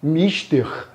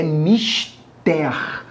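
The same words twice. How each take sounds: First: "Mister" stressed on the first syllable, MIS-ter; English pronunciation. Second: "mister" stressed on the last syllable, mis-TER, drawn out; Portuguese pronunciation. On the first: Teacher contrasting with English, "Mister" stressed on MIS. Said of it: "Em inglês, né, seria o quê?". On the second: Teacher showing the Portuguese form, slow "mister" stressed on TER. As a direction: slowly say "mister" as mis-TÉR with open final vowel. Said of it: "Em português, a pronúncia é". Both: Shown as a demonstration.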